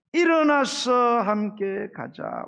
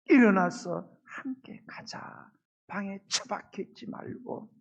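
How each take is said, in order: First: Drawn out and louder, each word weighted; slow emphatic reading. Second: Slow whisper, tender and intimate; whispered call. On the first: Pastor reading God's call to the congregation, slow and emphatic. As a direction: linger on 일어나서 함께 가자 slowly and firmly. Reading the Song of Songs verse. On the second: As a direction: breathe the invitation like a secret. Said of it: "주님이 말씀하시는 거예요". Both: Acted.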